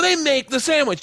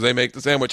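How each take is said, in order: First: High-pitched mock insistence; hammed-up assertion. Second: Said in the usual way. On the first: Actor in the play insisting on sandwich, high and hammed-up. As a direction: declare it high, like bad stage dialogue. Performing play lines, first character. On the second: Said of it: "He goes".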